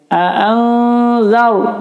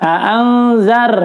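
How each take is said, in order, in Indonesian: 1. R-nya tebal dengan bibir membulat. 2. R-nya tipis dan digetarkan dengan jelas. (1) "mulutnya agak maju jadi sebenarnya zar ya sedikit ya" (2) "A'anzar salah, R-nya jelas ya, udah tarkik"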